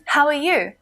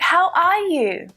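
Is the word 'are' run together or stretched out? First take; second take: run together; stretched out. First: The words run together quickly as one word. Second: The word 'are' is stretched out and emphasized. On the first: "it's like just one big word there" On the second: "really stretch out that and sound"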